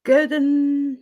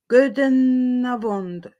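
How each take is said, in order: First: Goedenavond retried brisker, starting on a hard k; second Dutch try. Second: Goedenavond said slowly, every syllable drawn out, falling at the end; careful Dutch attempt. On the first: Retrying the Dutch greeting for viewers, quicker second attempt. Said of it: "so I'll try". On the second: Greeting Dutch viewers, slow careful try at the word. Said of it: "I don't know how to pronounce that". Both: Shown as a demonstration.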